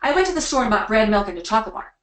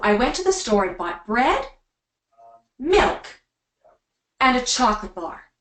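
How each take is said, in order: First: The list is rushed through quickly. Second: The list is said slowly, each item landed.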